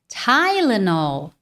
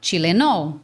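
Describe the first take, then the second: First: It is said with an English pronunciation. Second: It is said with a Brazilian Portuguese pronunciation. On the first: The speaker calls it right. "Qual que é a pronúncia natural no inglês?" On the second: The speaker calls it wrong. "Aqui no Brasil a gente fala Tilenol"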